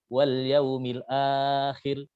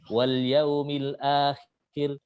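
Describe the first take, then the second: First: The lengthened vowel is held for a medium time. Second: The lengthened vowel is held for a short time. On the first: "empat harokat" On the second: "dibaca dua harokat"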